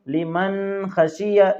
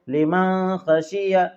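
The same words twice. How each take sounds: First: The n is held with a drawn-out nasal hum. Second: The n is hidden in the nose, not released. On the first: "कुछ लोग यहाँ पर गुन्ना करते हैं" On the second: "जाहिर नहीं करते बल्कि नाक में छुपाते हैं"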